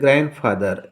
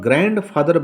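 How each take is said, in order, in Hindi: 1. d ध्वनि मौन है। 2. d ध्वनि उच्चारित होती है। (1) "क्योंकि डी साइलेंट होता है" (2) "तो यह गलत माना जाएगा"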